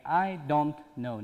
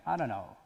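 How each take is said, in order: First: "don't" with a clear t, "I don't know", slowly; t pronounced. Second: "don't" with the t dropped, sounds like "I don' know". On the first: Teacher shows the careful form students should avoid, slowly. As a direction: sound the t in "don't" fully. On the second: Teacher models "don't" with no t for students. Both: Shown as a demonstration. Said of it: "ت رو تلفظ نکنیم".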